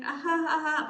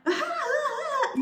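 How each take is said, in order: First: Short dry polite chuckle; a forced little laugh for someone they don't enjoy; flat, obligatory ha ha. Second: Much higher, slow, gushing laugh; imitating friends fawning over her with a big high laugh; over-the-top adoring giggle; delighted laugh. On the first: Retold or imitated. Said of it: "they don't laugh like that". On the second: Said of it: "But when they're around her".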